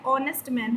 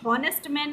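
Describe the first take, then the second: First: The first word starts with a vowel sound. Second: The first word starts with an h sound. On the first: The speaker calls it right. "ये क्या है, ऑनेस्ट man है" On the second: The speaker calls it wrong. "ये हॉनेस्ट man नहीं है"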